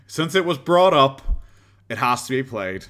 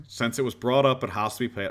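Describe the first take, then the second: First: Declaring. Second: Said in the usual way. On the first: Pretend. Mock-solemn announcement before playing clip.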